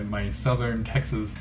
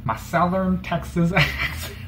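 First: Said in the usual way. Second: A bad Southern Texas accent played for laughs. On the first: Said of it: "That was supposed to be my". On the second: Shown as a demonstration. YouTuber mocking his own Southern Texas accent. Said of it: "supposed to be my, my Southern Texas".

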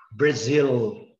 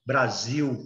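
First: "Brazil" ending in an L with the tongue up; English-style "Brazil", clear L, no U ending; English final L. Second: "Brasil" ending in a U sound; Portuguese U ending. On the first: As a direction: lift the tongue for the last sound of "Brazil". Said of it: "ele é pra cima". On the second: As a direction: say "Brasil" the Brazilian way, final L turned to U. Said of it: "que termina com U". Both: Shown as a demonstration.

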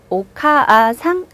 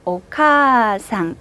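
First: 오카아상 with 카 and 아 said as two beats; 오카아상, split the vowel; wrong doubled vowel. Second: 오카상 with one smooth long 카; 오카상, glide through 카 in one breath; long vowel. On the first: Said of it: "이렇게 안 하고". (오카아상 모음을 두 번 끊어서) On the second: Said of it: "이렇게 발음하는". (오카상 카를 한 번에 길게) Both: Shown as a demonstration.

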